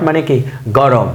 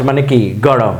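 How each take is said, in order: Both takes have the same delivery.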